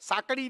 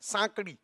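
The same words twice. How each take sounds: First: The middle consonant sounds like an r flap. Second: The middle consonant sounds like a retroflex d. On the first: The speaker calls it wrong. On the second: The speaker calls it right.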